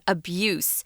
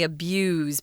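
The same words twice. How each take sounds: First: The final consonant is an s sound. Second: The final consonant is not an s sound. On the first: It is used as a noun. "Notice the pronunciation, guys, is the S sound" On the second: It is used as a verb. "you have to say it differently"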